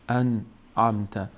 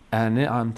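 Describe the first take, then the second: First: The n has no vowel after it. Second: The n is followed by an i vowel. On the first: The speaker calls it right. "نون ساکنه، نون حرکت نداره" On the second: The speaker calls it wrong. "ان عمت نشه ... حرکت کسره بهش ندید"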